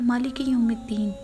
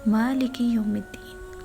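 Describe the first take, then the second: First: The vowels and doubled sounds are rushed and blurred. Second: The vowels and doubled sounds are clearly articulated. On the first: The speaker calls it wrong. "हम पढ़ते हैं" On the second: The speaker calls it right. "जबकि है"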